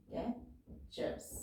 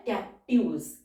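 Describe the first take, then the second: First: captures breathed out very softly and slowly; almost whisper captures, slow; soft slow dictation. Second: Said in the usual way. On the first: Shown as a demonstration. (Captures को बहुत धीरे और फुसफुसाकर बोलना) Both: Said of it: "word है captives".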